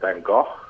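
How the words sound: The name is said with a Dutch-style accent. "with a sort of accent"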